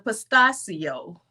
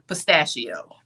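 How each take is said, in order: First: The word is pronounced in a fancy, posh way. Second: The word is pronounced in a plain, ordinary way. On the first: The speaker calls it wrong. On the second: The speaker calls it right.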